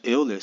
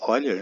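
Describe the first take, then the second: First: Euler said as written, EH-oo-ler; Euler with a Portuguese "eu" at the start; spelling pronunciation. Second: Euler pronounced OY-ler; Euler starting with an "oi" sound; corrected pronunciation. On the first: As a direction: read Euler letter by letter in Portuguese. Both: Shown as a demonstration. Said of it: "se pronuncia Euler".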